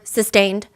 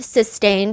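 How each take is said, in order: First: The word is said firmly. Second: The word is said softly.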